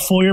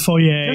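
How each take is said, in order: First: It is pronounced the plain, everyday way. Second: It is pronounced the fancy, posh way. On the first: It is an ordinary foyer. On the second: It is a fancy foyer.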